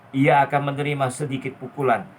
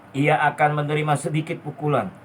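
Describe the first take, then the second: No difference in how they are said.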